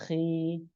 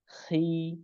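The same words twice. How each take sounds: First: The syllable sounds light, with a clear i vowel. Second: The syllable sounds light, with a clear i vowel.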